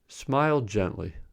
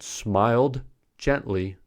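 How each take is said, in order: First: The d at the end of smiled is dropped. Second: The d at the end of smiled is pronounced. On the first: The speaker calls it right. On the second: The speaker calls it wrong.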